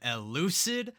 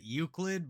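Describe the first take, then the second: First: The name is said with an 'L' after the first vowel. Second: The name is said like the word 'Euclid'. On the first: The speaker calls it right. "Finally, I said it right" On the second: The speaker calls it wrong. "I always said it Euclid"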